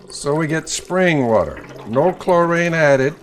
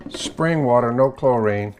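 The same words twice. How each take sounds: First: "no chlorine added" louder and slowed, "chlorine" punched; emphatic. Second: Said in the usual way. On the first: Real, not acted. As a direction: lean hard on "chlorine". Repeats water rule emphatically.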